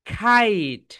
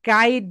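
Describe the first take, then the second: First: The first consonant has a strong puff of air. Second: The first consonant has no puff of air. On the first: The speaker calls it right. "এটাকে আমরা কি বলবো বলো তো? খাইট" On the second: The speaker calls it wrong. "এটাকে আমরা কাইট বলবো না"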